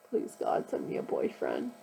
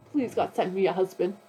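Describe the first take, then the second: First: Toned-down whisper. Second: Louder plea landing hard on "husband"; earnest prayer pushing "husband" louder; emphasis on husband. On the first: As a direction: hush it as a sheepish aside. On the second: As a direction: lean into "send me a husband" as if it matters most. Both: Real, not acted. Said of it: "I didn't mean to put more emphasis on that".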